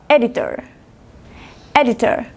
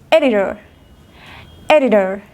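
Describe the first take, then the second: First: "editor" with a clear true T; British "editor", e-di-tor with crisp T; British hard T. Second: "editor" with T tapped like an R; American "editor", like e-di-dor; American flapped T. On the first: Teacher contrasting British with American, hard T in "editor". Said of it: "Inglés británico". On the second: Teacher contrasting American with British, flapped T in "editor". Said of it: "Inglés americano". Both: Shown as a demonstration.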